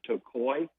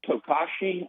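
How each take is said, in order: First: The name is said in its native-style pronunciation. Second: The name is read out as it looks written. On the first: The speaker calls it right. "I think you pronounce it Tokoi" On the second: The speaker calls it wrong. "it looks like Toga, Tokashi on the label"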